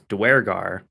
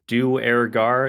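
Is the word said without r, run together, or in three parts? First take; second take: run together; three parts. First: The parts are run together into one word. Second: The word is split into three separate parts. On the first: "They match it together as Duergar" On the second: "the way I usually pronounce it is Duergar in kind of three parts"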